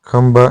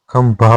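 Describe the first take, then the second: First: खंबा with unaspirated b; wrong form. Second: खंभा with aspirated bh; correct form. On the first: Teacher showing learners the mistake, खंबा with plain b. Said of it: "नहीं होता". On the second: Teacher giving the correction, खंभा with bh. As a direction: say खंभा ending in breath-released -bha. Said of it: "होता है". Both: Shown as a demonstration.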